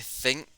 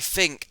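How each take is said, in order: First: The word begins with a th sound. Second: The word begins with an f sound. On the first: "I would say think" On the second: "he would say f with like an F"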